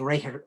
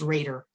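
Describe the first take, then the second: First: The name is said the German way. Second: The name is said the American way.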